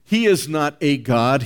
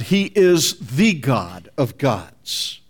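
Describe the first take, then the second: First: "a" said as a stressed "ay" before "god"; firm denial leaning on "a". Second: Slow, with "the" stressed as "thee"; emphatic correction leaning hard on "the". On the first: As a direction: hit "a" as a full "ay". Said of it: "By the insertion of the indefinite article". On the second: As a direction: stretch it out and punch "the" as "thee". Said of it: "which makes it the definite article". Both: Shown as a demonstration.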